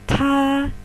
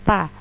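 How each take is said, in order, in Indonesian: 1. Bunyi t diucapkan dengan hembusan udara. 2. Bunyi t diucapkan tanpa hembusan udara. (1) "tetapi ta. Ada aspirasinya" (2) "bukan ta"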